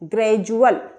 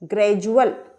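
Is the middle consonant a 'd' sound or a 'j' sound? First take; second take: j; j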